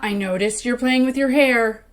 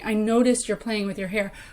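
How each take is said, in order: First: It is said in a loaded, pointed tone. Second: It is said in a plain, neutral tone.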